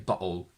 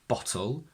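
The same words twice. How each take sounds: First: The t is replaced by a glottal stop. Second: A strong t is followed by a short vowel. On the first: "they use a glottal stop" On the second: "the schwa, ... with a strong t"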